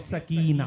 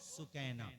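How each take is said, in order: First: The first syllable has an 'ah' vowel. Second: The first syllable has an 'oo' vowel. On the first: This is the everyday Urdu form of the name. "जिसको हम लोग कहते हैं सकीना" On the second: This is the original form of the name. "असल में नाम क्या है भाई? वो सुकैना"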